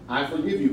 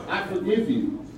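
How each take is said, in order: First: Said in the usual way. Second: Raised, pointed I forgive you; emphatic forgiveness. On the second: Real, not acted. Speaker forgives the official to his face, emphatic. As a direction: say forgive with a firm fall. Addresses official at public meeting.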